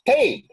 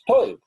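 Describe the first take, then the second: First: The vowel sounds like 'ay'. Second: The vowel sounds like 'oy'. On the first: "For the Litvak, a person who's deaf is teib" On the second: "in standard Yiddish, it's toib"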